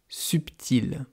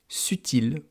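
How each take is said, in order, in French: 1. Un son B est entendu au milieu. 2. Aucun son B n'est entendu au milieu. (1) "On l'entend d'ailleurs" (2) "avant, on disait subtil"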